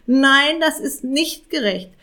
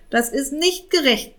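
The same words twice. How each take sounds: First: Das punched higher, angrier repeat; stress on das. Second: Angry, nicht hit hardest; stress on nicht. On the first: Raven insists again to the cat, das stressed. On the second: Raven protests to the cat, angry, nicht stressed. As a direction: press the word nicht in anger. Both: A narrator's reading. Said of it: "krächzte Jakob zornig".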